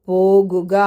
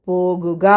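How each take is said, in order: Both takes have the same delivery.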